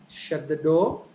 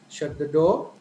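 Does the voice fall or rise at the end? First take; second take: rise; rise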